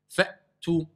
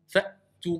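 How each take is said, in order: Both takes have the same delivery.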